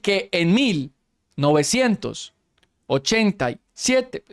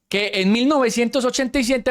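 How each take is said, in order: First: The phrase is broken up by many pauses. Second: The phrase flows smoothly without pauses. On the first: The speaker calls it wrong. "en vez de decir" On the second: The speaker calls it right. "qué tan difícil es decir"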